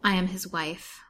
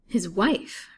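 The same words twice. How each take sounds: First: Said in the usual way. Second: Louder, with WIFE raised in query; questioning echo. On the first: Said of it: "said poor Fanny simply". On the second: A narrator's reading. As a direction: repeat it back, pitching up on WIFE. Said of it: "repeated the detective".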